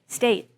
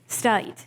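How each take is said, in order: First: The vowel is a less southern 'ay' glide. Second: The vowel sounds like the vowel in 'eye'. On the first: The speaker is younger and less southern. "pronounce the sound in a less southern way" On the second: The speaker is older and uses a southern dialect. "they pronounce the sound A like I"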